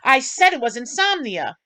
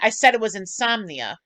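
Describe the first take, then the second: First: It is shouted loudly. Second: It is said at normal volume, not shouted.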